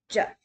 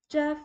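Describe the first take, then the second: First: The pitch sounds short and choppy. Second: The pitch stays high and level. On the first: "Kind of sounds choppy" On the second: "a higher note and it just stays there"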